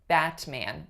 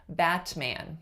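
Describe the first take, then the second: First: The T is released with an audible puff. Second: The T is released with an audible puff.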